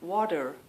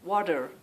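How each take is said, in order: First: The middle consonant is a soft D sound. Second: The same.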